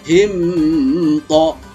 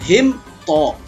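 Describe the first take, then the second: First: The m is blurred into the following t. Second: The m is pronounced clearly before the t. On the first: The speaker calls it wrong. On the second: The speaker calls it right.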